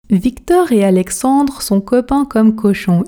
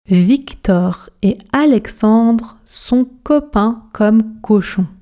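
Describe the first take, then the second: First: It is said at an ordinary, fluent speaking speed. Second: It is said very slowly with careful articulation. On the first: "vitesse standard maintenant. Objectif, fluidité" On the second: "on commence à la vitesse tortue, objectif articulation"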